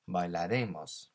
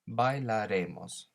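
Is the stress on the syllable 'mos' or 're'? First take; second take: re; re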